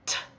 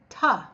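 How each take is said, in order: First: A short voiceless t with no vowel after. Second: The t is followed by an added uh vowel. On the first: The speaker calls it right. "T is a quiet sound. There's no voice that goes" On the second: The speaker calls it wrong. "A lot of people pronounce the letter T as tuh. You can't do that"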